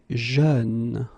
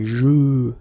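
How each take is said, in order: First: The vowel is lighter and more open, like in peur. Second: The vowel is closed and deep, like in bleu. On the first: The speaker calls it right. "you say jeune" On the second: The speaker calls it wrong. "you don't say je"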